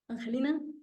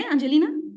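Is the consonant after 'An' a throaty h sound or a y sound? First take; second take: throaty h; y sound. First: The consonant after 'An' is a throaty h sound. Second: The consonant after 'An' is a y sound. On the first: "Con G" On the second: "con Y"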